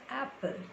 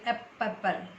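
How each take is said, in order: First: The p sound in the middle is single. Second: The p sound in the middle is doubled. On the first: The speaker calls it right. "We pronounce it apple" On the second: The speaker calls it wrong. "We never pronounce it like apple"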